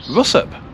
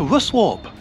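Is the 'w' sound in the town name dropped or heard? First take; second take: dropped; heard. First: The 'w' is dropped, giving a short 'up' ending. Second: The middle 'w' and 'arp' are fully pronounced. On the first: The speaker calls it right. "It's actually pronounced Russup" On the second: The speaker calls it wrong. "I've been to Russwarp. And they went, where the hell is that?"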